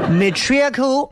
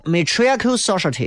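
First: Matriarchal said slowly, syllable by syllable, rising; careful pronunciation. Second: Matriarchal said quickly with a falling end; quick pronunciation. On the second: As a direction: say matriarchal briskly and let it fall. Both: Shown as a demonstration. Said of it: "谁会说？".

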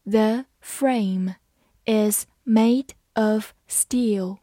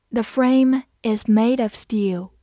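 First: Slow, careful model reading; slow demo for learners. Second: Said in the usual way. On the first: Shown as a demonstration. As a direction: read each word slowly. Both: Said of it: "好，慢慢来读。".

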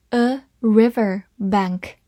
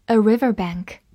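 First: Slow, three words set apart; spaced-out model for learners; slow reading. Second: Said in the usual way. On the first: Shown as a demonstration. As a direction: say each word separately and slowly. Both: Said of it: "我们慢慢来读一下".

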